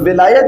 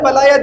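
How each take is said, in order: First: The first vowel is an 'i' sound. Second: The first vowel is an 'a' sound. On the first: "जेर से भी पढ़ा जा सकता है" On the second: "ज़बर से भी पढ़ा जा सकता है"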